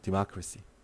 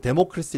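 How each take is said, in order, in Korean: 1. 약하게 줄어든 'dih-muh' 소리로 시작해요. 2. 분명한 'deh-moh' 소리로 시작해요. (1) "디마크라시 알아두시고" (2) "데모크라시 이렇게 읽으면은 창피한 거예요"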